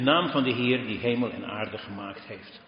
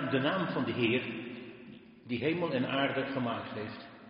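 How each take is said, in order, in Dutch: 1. De stem heeft lichtere galm. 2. De stem heeft zware galm. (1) "Is beter" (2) "dit is wel heel erg met gommel"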